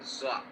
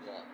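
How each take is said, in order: First: The consonant sounds like a plain z. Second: The consonant sounds like a heavy dh. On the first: The speaker calls it wrong. "biasanya banyak di sini yang kurang benar membacanya. Mereka bilang" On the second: The speaker calls it right. "Padahal yang benar adalah"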